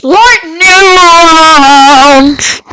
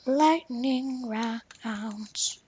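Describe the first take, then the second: First: Huge, long-drawn high shout; announcer yell. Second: Slow, soft stretched-out call; drawn-out announcer call. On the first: Player hyping the rounds as announcer, drawn-out yell. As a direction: belt it out, stretching every vowel. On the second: Player replaying the announcer line, soft and drawn-out. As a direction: stretch it out slowly and quietly. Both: Pretend. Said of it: "I, I just love going like that".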